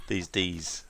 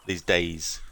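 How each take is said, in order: First: "Ds" said as the letter D, tees; "These Ds" with Ds as the letter name. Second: Said in the usual way. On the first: Shown as a demonstration. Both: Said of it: "I don't know why I said these Ds".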